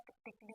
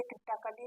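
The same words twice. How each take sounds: First: क्रिटिकली with the A dropped, "kri-tik-li"; silent A. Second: क्रिटिकली with the silent A voiced, "kri-ta-ka-li"; wrong pronunciation. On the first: Teacher correcting pupils, क्रिटिकली said with silent A as "kritikli". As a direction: run क्रिटिकली together as "kritikli", no "a" before the l. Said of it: "क्रिटिकली कहते हैं". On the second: Teacher showing pupils how not to say it, क्रिटिकली mispronounced as "kritakali". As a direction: sound out an extra "a" in क्रिटिकली, like "kritakali". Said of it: "इसे क्रिटिकली नहीं कहते हैं". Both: Shown as a demonstration.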